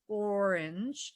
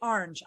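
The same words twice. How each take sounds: First: It is said with a standard pronunciation. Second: It is said with a regional accent. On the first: This is how others say it. "now that one I can kind of say if I think really hard about it, it's orange, but I do not say that" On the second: This is how the speaker naturally says it. "I say orange"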